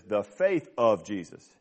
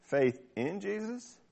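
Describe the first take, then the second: First: "of" drawn out, set apart slowly; lower, slow phrase leaning on "of"; stress on OF. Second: "in" drawn out, pitch lifted, softer; stress on IN. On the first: Preacher quoting the King James wording, stress on "of". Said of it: "The King James says". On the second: Preacher quoting the E S V wording, stress on "in". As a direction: lean slowly on "in". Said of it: "the E S V says". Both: Shown as a demonstration.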